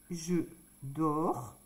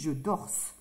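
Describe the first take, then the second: First: The verb ends without an s sound. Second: The verb ends with an s sound. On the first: The speaker calls it right. "On n'entend pas le S" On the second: The speaker calls it wrong. "Je n'ai pas dit je dorse"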